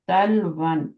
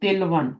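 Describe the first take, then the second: First: The first vowel is an 'a' sound. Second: The first vowel is an 'i' sound. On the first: The speaker calls it right. "यहाँ पे जबर होती है" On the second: The speaker calls it wrong. "Not तिलवन"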